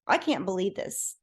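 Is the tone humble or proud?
proud. It is said in a proud, showy tone. "I didn't say it like that"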